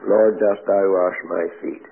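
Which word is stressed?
none. Every word gets the same even, flat beat. The reading carries no particular meaning. "some people read that. Boo, boo, boo, boo, boo, boo, boo"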